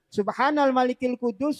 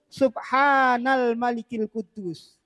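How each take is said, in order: First: The vowels are kept at normal length. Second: The long vowels are clearly drawn out.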